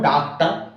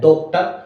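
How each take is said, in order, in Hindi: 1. पहला स्वर सादा खुला 'aa' है। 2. पहला स्वर गोल 'aw' है। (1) "अगर मैं पढ़ू" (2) "जबकि पढ़ा क्या जाता है"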